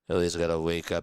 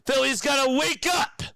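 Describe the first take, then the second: First: It is said in a calm, ordinary voice. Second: It is said loudly, like a motivational speaker.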